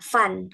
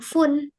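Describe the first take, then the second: First: The vowel sounds like an a. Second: The vowel does not sound like an a. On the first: The speaker calls it right. "diganti dengan a" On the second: The speaker calls it wrong. "bukan fun"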